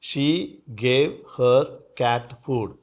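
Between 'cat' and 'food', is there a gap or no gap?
gap. There is a gap between 'cat' and 'food'. She gave food to her cat.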